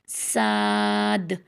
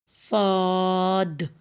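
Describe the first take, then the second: First: The vowel is open and wide, like 'aa'. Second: The vowel is not widened and sounds like 'au'. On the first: "पहले चौड़ा करके पढ़ें" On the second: "जब चौड़ा नहीं करेंगे तो ऑटोमेटिकली ये सौद बन जाएगा"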